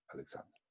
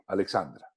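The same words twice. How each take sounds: First: Breathy whisper, testing how it sounds; soft unvoiced trial of the name. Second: Said in the usual way. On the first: Shown as a demonstration. Trying the name to himself.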